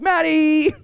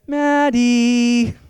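First: "Maddie" sung out higher through a laugh; subtler nacho call. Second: A loud calling-out of "Maddie" to the wife; loud nacho call. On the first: Hinting to the wife it's nacho time, laughing. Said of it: "It's more like". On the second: Calling the wife to make nachos, loud and obvious. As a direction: call "Maddie" out loudly across the house. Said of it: "it'll sound kinda like this". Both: Shown as a demonstration.

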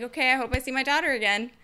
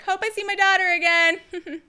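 First: Quick, offhand farewell; mom's shrugging parting line; casual mom. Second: Higher, louder hammed-up farewell; milk the mother's goodbye; mom's over-the-top parting line; mock dramatic mom. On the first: Retold or imitated. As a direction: toss it off lightly. Same line told again casually. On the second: Mom handing baby to coyote.

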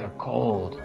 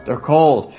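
First: Much lower and softer, heavy; low, muttered. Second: Said in the usual way. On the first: Real, not acted. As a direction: drop the voice right down on "cold". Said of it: "they just don't care". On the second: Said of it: "repeats They're cold".

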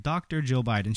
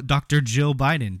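First: Said in the usual way. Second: "Doctor" hit louder and mocking; Doctor Jill Biden with a scoffing punch on "Doctor"; sarcastic stress on Doctor. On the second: Real, not acted.

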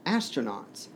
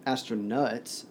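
First: Said in the usual way. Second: "astronauts" ending in "nuts"; mocking mispronunciation. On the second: A narrator's reading. Johnson twists Shepard's word, mocking "astronauts" as astro-nuts.

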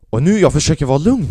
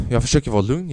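First: Loud, tense, barely holding it together; tense shout of forced calm; strained forced calm. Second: Said in the usual way. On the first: Retold or imitated. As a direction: grit out the words as if you're about to explode. Straining to stay calm, losing it.

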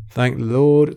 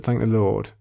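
First: Relieved exclamation. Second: Said in the usual way. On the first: Real, not acted. Quizzer thanking the Lord after a close win, loud relief. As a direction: Lord rings out higher and louder.

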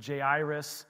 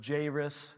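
First: Jairus said slowly as "jay-EYE-rus"; Jairus, slow with an eye sound in the middle; Jairus, another way. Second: Jairus said slowly as "JAY-rus"; Jairus, stretched and slow; Jairus said differently. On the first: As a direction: stretch out Jairus, second way. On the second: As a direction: draw out Jairus, first take of the name. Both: Shown as a demonstration. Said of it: "we like to say Jairus".

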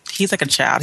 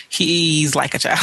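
First: Said in the usual way. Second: "he's" drawn out slowly; emphatic concession. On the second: Real, not acted. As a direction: lean long on "he's" to concede the point. Conceding after saying not our child.

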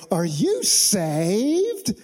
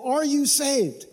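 First: Put-on drawn-out Southern accent with a long rising end; exaggerated Southern accent. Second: Said in the usual way. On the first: Southerner approaching a stranger in the subway, hammed-up Southern accent. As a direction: stretch each word in a mock Southern accent. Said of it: "a Southerner walking up to somebody". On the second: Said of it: "has anybody ever asked you that before".

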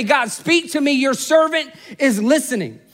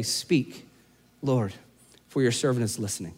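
First: Said in the usual way. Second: Much softer, lower, hushed prayer; a quiet personal prayer to God. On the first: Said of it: "for you just to say". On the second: Shown as a demonstration. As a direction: breathe it out like a whispered prayer. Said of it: "added to your soundtrack".

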